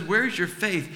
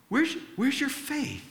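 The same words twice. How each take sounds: First: Said in the usual way. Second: Jesus asking gently. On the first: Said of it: "And Jesus simply says". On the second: Retold or imitated. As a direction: voice Jesus lifting it high, almost tender. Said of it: "and he goes".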